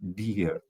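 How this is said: It is said in a sweet, happy tone. The speaker feels affection. "so it's sweet, it can be happy"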